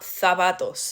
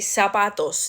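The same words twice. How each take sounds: First: The first consonant is pronounced as a th. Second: The first consonant is pronounced as an s. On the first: The speaker calls it wrong. "not zapatos" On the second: The speaker calls it right. "you would say zapatos"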